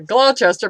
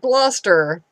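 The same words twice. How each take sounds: First: The name is said as it is spelled. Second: The name is said the local, reduced way. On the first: The speaker calls it wrong. "It looks like uh, Gloucester" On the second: The speaker calls it right. "but it's pronounced Gloucester"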